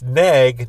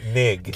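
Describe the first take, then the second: First: The vowel sounds like 'eh' in 'bed'. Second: The vowel sounds like 'ih' in 'big'. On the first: The speaker calls it right. "So it's neg" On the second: The speaker calls it wrong. "not nig"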